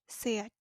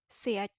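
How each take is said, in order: Both takes have the same delivery.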